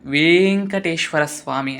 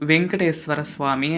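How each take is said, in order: First: The first syllable has a long vowel. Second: The first syllable has a short vowel. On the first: The speaker calls it right. "వేం అని పలకాలి" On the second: The speaker calls it wrong. "మనం పె పలికేటప్పుడు వెంకటేశ్వర స్వామి అని అంటాం. కాదండి"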